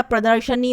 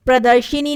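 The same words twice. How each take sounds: First: प्रदर्शनी with sha; short a after sh in प्रदर्शनी; correct form. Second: प्रदर्शिनी with shi; wrong form. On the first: Teacher correcting students, प्रदर्शनी as pradar-sha-ni. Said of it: "प्रदर्शनी होता है". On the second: Teacher showing the mistake, प्रदर्शिनी as pradar-shi-ni. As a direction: put an i after sh in प्रदर्शिनी. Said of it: "प्रदर्शिनी नहीं होता". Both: Shown as a demonstration.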